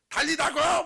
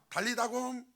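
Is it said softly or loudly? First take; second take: loudly; softly. First: It is said loudly and forcefully. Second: It is said softly and gently.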